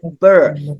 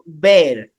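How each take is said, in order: First: The vowel is a weak 'uh' sound. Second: The vowel is an open 'air' sound. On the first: The speaker calls it right. "but burr" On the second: The speaker calls it wrong. "not bear"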